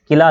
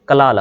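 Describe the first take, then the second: First: The first syllable has an 'i' vowel. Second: The first syllable has an 'a' vowel. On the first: The speaker calls it wrong. "किला लफ्ज़ नहीं होता" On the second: The speaker calls it right. "बल्कि कला लफ्ज़ होता है"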